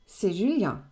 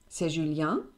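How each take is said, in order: First: The voice falls at the end. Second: The voice rises at the end. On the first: It is a statement. "für die Antwort C'est Julien" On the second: It is a question. "für die Frage C'est Julien"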